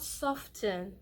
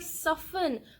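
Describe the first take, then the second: First: The T sound is pronounced. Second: The T sound is silent. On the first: The speaker calls it wrong. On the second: The speaker calls it right.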